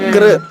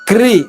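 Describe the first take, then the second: First: The syllable ends in a vocalic r sound. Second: The syllable ends in a spread ee sound. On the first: The speaker calls it right. "పెదవుల్లో కదలిక రాకుండా కృష్ణ చెప్పాలి" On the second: The speaker calls it wrong. "క్రి ఇలా సాగుతున్నాయి"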